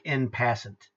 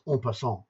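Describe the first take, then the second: First: It is read out with English spelling sounds. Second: It is said with French sounds. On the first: The speaker calls it wrong. "if you saw it written, ... it looks like en passant" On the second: The speaker calls it right. "it's pronounced en passant. That's French"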